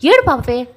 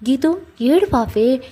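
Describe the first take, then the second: First: "ఏడు పాపే" pushed out louder in frustration; exasperated, louder now; exasperated louder plea. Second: Drawn-out coaxing plea, "ఏడు పాపే" stretched slowly; slow pleading. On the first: Jai fed up with Geetu wailing on the road, louder exasperated plea. నెత్తి నోరు కొట్టుకుంటున్నాడు. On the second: Jai coaxes crying Geetu on the street, slow and pleading. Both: Acted.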